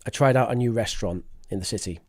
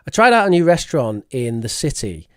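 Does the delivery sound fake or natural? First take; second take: natural; fake. First: It sounds relaxed and conversational, like real talk. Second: It sounds stiff and put on, like reading.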